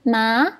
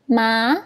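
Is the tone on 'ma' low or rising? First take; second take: rising; rising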